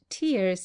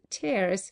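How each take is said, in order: First: The vowel sounds like the one in fears. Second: The vowel sounds like the one in bears. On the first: Drops of weeping are meant. The speaker calls it wrong. "if pronounced tears" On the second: Rips in the material are meant. The speaker calls it right. "instead of tears"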